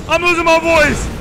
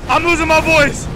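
Both takes have the same delivery.

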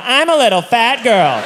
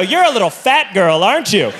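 First: Higher, slow, pitiful surrender; mock-pathetic forced confession; humiliated admission. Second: Lightly acted taunting question; mock bully's jibe; bullying taunt. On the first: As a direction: repeat it meekly, drawn out in defeat. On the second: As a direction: needle the passenger, leading them to agree. Staff bully the passenger.

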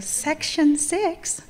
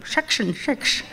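First: "section six" drawn out slowly, higher, with crisp s sounds. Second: "section six" said as "shekshun shiksh", s sounds turned to sh; Indian pronunciation. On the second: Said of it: "that's where my Indianness comes out". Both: Shown as a demonstration.

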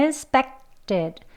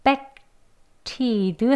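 First: Expected with a plain aspirated T, the way to avoid; the wrong expected, aspirated T. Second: Expected with a tense ㄸ-like T; the right expected, tense T. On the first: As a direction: say expected with a breathy T after K. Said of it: "하기보다는". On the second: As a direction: say expected with the T tensed, no puff of air. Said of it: "된 소리로 발음해 주시면 돼요". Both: Shown as a demonstration.

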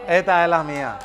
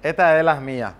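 No difference in how they are said.

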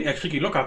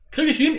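First: Said in the usual way. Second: Very high, loud excited squeal; shrieking jackpot winner. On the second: Real, not acted. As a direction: squeal it, can't believe your luck. Chasing the UFO.

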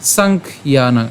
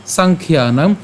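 First: "সাংখ্যানাং" slowly as sankh, then yanang; broken pronunciation. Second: "সাংখ্যানাং" in one go as sankhyanang; joined pronunciation. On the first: Teacher reads the split slide, broken "সাংখ্যানাং". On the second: Teacher says to join it, unbroken "সাংখ্যানাং". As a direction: run "সাংখ্যানাং" together, no break after kh. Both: Shown as a demonstration. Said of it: "আমরা এটা একসাথে উচ্চারণ করব".

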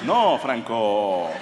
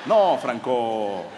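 First: Slow, low, let-down "No, Franco"; disappointed friends. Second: Slow, low letdown with a laugh in it; disappointed again, laughing. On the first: Friends turning down Franco, slow and disappointed. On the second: Friends refusing the porn theatre, slow and disappointed. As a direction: sigh it out as a let-down friend. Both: Retold or imitated. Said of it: "fue más así como decepcionados".

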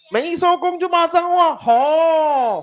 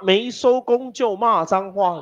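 First: Much higher, hammed-up squeaky warning; mock high warning. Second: Said in the usual way. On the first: Teacher teasing class about swearing, mock high voice. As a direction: repeat it in a silly high voice.

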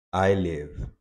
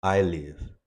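No difference in how they are said.

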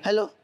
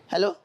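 Both takes have the same delivery.

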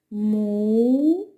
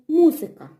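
First: Му-зи-ка slowly, three open beats Му, зи, ка; slow syllables. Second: Said in the usual way. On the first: Shown as a demonstration. Teacher to children, Му-зи-ка in slow syllables. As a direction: open your mouth wide on each syllable of Му-зи-ка. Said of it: "Давайте". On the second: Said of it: "слово".

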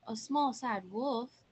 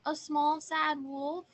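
First: Slow, questioning repeat; mildly incredulous, drawn-out question; puzzled echo. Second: High little voice, raised in volume; small sad wolf. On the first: Hiders echo the answer, doubting. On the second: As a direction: play a little wolf at the door. Little wolf answers at the door. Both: Acted.

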